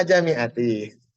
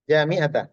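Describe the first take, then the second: First: Jami'ati drawn out, ending in "i"; akhiran kasrah. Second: Jami'ata ending on "ta"; akhiran "a". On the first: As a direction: slowly close jami'ati on -ti. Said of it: "bacanya di bawah ini dah". (jami'ati pelan dengan akhiran kasrah "i") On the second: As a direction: say jami'ata with a final -a. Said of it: "Jami'ata, jami'atu". (jami'ata dengan akhiran fathah) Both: Shown as a demonstration.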